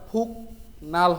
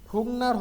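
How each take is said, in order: First: The first syllable ends in a k sound. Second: The first syllable ends in an ng sound. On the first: The speaker calls it wrong. "এটা ফুক নাল হবে না।" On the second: The speaker calls it right. "গিয়কটা ইয়ং উচ্চারিত হবে।"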